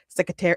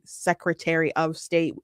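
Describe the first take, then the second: First: The words run together like one word. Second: The words are said separately and clearly.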